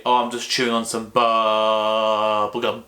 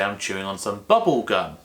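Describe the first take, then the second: First: Teacher demoing how not to say bubble gum; wrong rhythm. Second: Teacher demoing the natural rhythm of bubble gum. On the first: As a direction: bubble gum with bubble and gum given equal, unnatural weight. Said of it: "You wouldn't say". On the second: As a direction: bubble quick and light, gum long and held. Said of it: "You'd say". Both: Shown as a demonstration.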